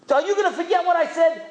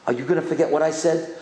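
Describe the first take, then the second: First: High, fast, shouted challenge; fervent shout. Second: Said in the usual way. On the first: Retold or imitated. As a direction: hurl the question at the crowd. Rabbi challenges the boys.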